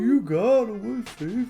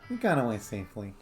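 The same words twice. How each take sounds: First: It is said in an old person voice. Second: It is said in a normal voice.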